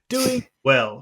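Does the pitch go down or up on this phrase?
down. The pitch goes down on the phrase. The speaker calls it right. "You go down"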